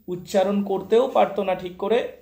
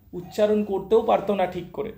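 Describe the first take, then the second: No difference in how they are said.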